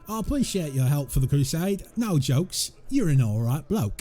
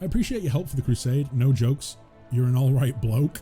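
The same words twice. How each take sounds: First: It is read in a heavy Cockney accent. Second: It is read without a Cockney accent.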